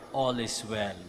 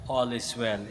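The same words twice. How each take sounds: The two takes are said the same way.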